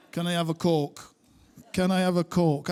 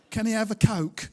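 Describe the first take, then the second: First: Ordering a Coke in broad northern Bolton accent; thick Bolton accent. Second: Mock posh London accent, a bit louder. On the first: Shown as a demonstration. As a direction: lean into your Bolton accent. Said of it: "trying to order a Diet Coke in London with this accent". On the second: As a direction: order it like a Brixton-born Londoner. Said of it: "my wife, thankfully, was born in Brixton".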